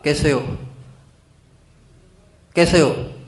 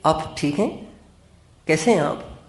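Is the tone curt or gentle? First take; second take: curt; gentle. First: It is said in a curt, blunt tone. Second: It is said in a soft, warm tone.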